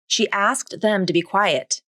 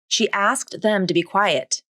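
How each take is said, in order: First: Each word is said fully and separately. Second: Each word is said fully and separately.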